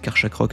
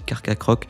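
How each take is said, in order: First: The middle syllable has a 'sh' sound. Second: The middle syllable has a 'k' sound. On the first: This is how it used to be said. The speaker calls it wrong. "Moi je disais Karchakroc à l'époque" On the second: This is how it is properly said. The speaker calls it right. "je crois que ça se dit Carcacroc"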